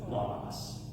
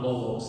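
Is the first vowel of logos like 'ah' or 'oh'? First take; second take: ah; oh. First: The first vowel sounds like 'ah'. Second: The first vowel sounds like 'oh'. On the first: The speaker calls it right. "it's logos. Is the way that I was taught" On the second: The speaker calls it wrong. "So it's not logos"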